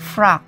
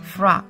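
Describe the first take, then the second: No difference in how they are said.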